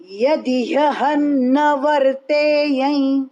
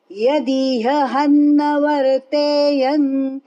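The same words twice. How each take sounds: First: यदि यहन न वर्तेयं said slowly with the words joined; correct joined reading. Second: यदि यहन न वर्तेयन said slowly with the words pulled apart; wrong way demo. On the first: Teacher showing students the right joined reading, slow. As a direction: join यदि to यहन smoothly, recited slowly. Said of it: "यह शब्द जोड़कर बोलना". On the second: Teacher showing students the wrong reading, slow and split. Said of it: "ऐसा बोलना नहीं". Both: Shown as a demonstration.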